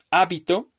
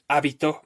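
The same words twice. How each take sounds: First: Hábito stressed on the opening HÁ; stress on first syllable. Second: Habitó with the stress on final TÓ; stress on last syllable. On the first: Teacher contrasting tritonic words for students, hábito stressed on HÁ. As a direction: hit HÁ in hábito, then let -bito go light. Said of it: "No es lo mismo de decir". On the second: Teacher showing the words differ, habitó stressed on TÓ. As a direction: say habitó, landing hard on the last -TÓ. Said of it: "Son diferentes". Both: Shown as a demonstration.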